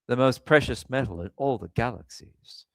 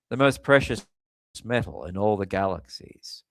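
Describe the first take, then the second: First: It is read in his own plain voice. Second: It is read in an impression of Spock.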